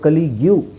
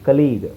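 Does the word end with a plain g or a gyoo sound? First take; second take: gyoo; plain g. First: The word ends with an extra yoo sound. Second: The word ends with a plain g sound. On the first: The speaker calls it wrong. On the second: The speaker calls it right.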